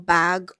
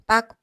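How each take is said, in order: First: The word ends in a released g sound. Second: The word ends in a k sound. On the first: The speaker calls it wrong. "So it is not bag" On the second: The speaker calls it right. "It is back, The K sound at the ending"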